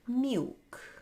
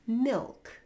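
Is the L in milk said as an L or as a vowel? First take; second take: vowel; L sound. First: The L is replaced by an ow vowel. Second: It has a dark L sound.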